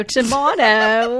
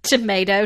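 First: Tomato said loudly as "tuh-MAH-doh", drawn out and higher; loud, slow tomato with a broad "ah"; second pronunciation variant. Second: Tomato said loudly as "tuh-MAY-doh"; loud Tomato with a long "ay"; first pronunciation variant. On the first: Joking to co-host about differing pronunciations, tomato with MAH. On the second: Joking to co-host about differing pronunciations, Tomato with MAY. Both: Shown as a demonstration. Contrasting two ways to say a word.

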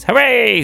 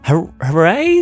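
First: High, loud falling hooray; jubilant cheer. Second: Slow, stumbling hooray with rising end; hesitant cheer. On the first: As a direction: cheer out with full glee. Another bear cheers. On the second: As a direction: join the cheer uncertainly. Girls join cheer hesitantly. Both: Acted.

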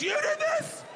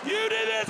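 First: Shocked squeal. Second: Indignant yell. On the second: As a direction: hurl the question back as a charge. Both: Retold or imitated. Dad accusing son.

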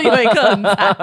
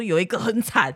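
First: Louder, laughing it out the second time; repeating it with a burst of laughter. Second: Said in the usual way. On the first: Retold or imitated. Brother-in-law's line retold to her, laughing and louder. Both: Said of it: "他说".

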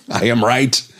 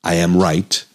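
First: Laughing. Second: Said in the usual way. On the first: Real, not acted.

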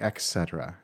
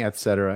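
First: "et cetera" said as EK-SET-er-uh; mistaken K sound. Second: "et cetera" said as ET-SET-er-uh; correct T sound. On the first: Podcaster quoting his own error, "et cetera" as ek-SET-er-uh. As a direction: say "et cetera" with k replacing the t. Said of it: "and I am saying". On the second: Podcaster finding the right form, "et cetera" with t. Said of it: "I should be saying". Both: Shown as a demonstration.

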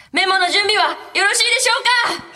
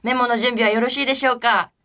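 First: High, loud mock announcer yell; ふざけた絶叫告知. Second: Said in the usual way. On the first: Radio host hamming up the memo question to listeners, high mock shouting. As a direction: belt out the routine question as a silly shout. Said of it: "こういうこと？ こういうふうに？".

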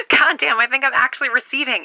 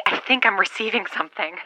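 First: Higher, laughing with disbelief; excited laugh. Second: Said in the usual way. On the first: Acted. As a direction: burst out laughing in relief. Signal finally comes through.

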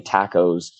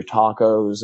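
First: "tacos" with a short flat A; "tacos" with the vowel of "cat"; Irish pronunciation. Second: "tacos" with a long open A; "tacos" with the vowel of "father"; Americanized pronunciation. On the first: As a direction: say "tacos" as TACK-ohs, the Irish way. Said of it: "instead of saying tacos". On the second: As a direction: say "tacos" as TAH-kohs, the American way. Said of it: "I'd say". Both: Shown as a demonstration.

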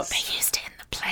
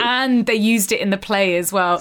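First: Soft, breath-only whisper; whispered repeat. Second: Said in the usual way. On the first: Real, not acted. Co-host repeating the detail about the play, whispered. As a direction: whisper it as a hushed aside.

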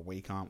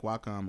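First: Wacom said as WAY-kom, long A first; alternative pronunciation. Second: Wacom said as WAH-kom, open A first; alternative pronunciation. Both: Real, not acted. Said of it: "whatever you pronounce it".

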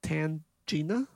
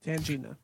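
First: "Tangina" drawn out slowly with rising question; questioning, stretched-out attempt at "Tangina"; unsure pronunciation. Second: "Tangina" said as a plain statement; decide on "Tangina", no questioning rise; "Tangina" in one go, decided; settled pronunciation. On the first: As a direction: sound out "Tangina" slowly, tentatively. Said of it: "I don't know how to pronounce". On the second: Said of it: "That's what I'm gonna pronounce it as". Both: Shown as a demonstration.

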